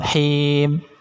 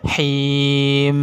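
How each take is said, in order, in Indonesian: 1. Huruf m di akhir dipotong terlalu pendek. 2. Huruf m di akhir dibunyikan terlalu panjang. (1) "Kalau him itu kurang" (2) "itu kelamaan"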